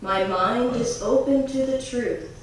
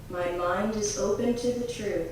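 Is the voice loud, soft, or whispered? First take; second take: loud; soft. First: It is said in a strong, loud voice. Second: It is said in a softer, quieter voice. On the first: "first in a strong voice grabbing the attention of the conscious mind" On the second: "A little softer"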